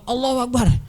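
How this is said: It is shouted in an aggressive, protest-like way.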